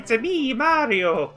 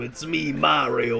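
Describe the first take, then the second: First: It is said in a kindly, sweet accent. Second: It is said in a gruff Brooklyn accent. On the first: The character is kind and friendly. "Mario's supposed to be like kindly and nice" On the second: The character is a tough city plumber. "he's a Brooklyn plumber"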